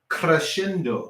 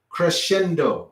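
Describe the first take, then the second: First: The R is strongly rolled. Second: The R is said plainly, not rolled.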